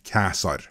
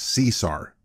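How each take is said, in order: First: The name begins with a hard K sound. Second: The name begins with a soft S sound. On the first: This is how the name was said in Roman times. "in Roman times his name was pronounced Caesar" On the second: This is the modern everyday pronunciation. "the Roman emperor we all know as Caesar"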